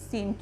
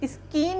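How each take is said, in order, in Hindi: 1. c silent है, उसमें k की आवाज़ नहीं है। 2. s के बाद k की आवाज़ आती है। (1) "इसको हम क्या पढ़ेंगे सीन पढ़ेंगे" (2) "स्कीन नहीं पढ़ेंगे इसको हम"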